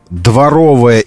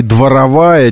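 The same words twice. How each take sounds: First: "дворовая" with stress on the middle syllable РО; stress on second О. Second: "дворовая" with stress moved to the syllable ВА; дворовАя, stressed late on -ВА-. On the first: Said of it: "противоречие между дворовая и дворовая ... ударение". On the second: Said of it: "ударение". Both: Shown as a demonstration.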